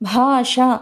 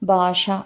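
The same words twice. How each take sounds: First: The first consonant is said with aspiration. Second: The first consonant is said without aspiration. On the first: The speaker calls it right. "అనాల్సిన చోట" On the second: The speaker calls it wrong. "అంటారు"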